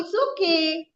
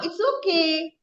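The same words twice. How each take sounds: First: The voice sounds excited and lively. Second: The same.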